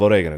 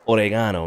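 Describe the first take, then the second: First: The word is said with a non-British pronunciation. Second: The word is said with a British pronunciation. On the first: This is how it should have been said. The speaker calls it right. "instead of oregano" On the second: This is how the British speaker said it. The speaker calls it wrong. "She said oregano"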